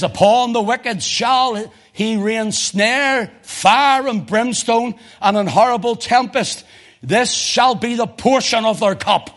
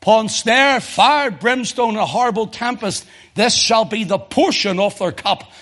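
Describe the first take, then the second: First: Slow, high, weighty reading of the psalm; slow scripture reading. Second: Higher, each item punched; emphatic repeat. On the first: Preacher reading Psalm eleven to the church, slowly. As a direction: lay each word down slowly. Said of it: "Listen to this". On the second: Preacher repeating the psalm to drive it home, punched. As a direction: hammer every word of the list. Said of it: "Notice that". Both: Shown as a demonstration.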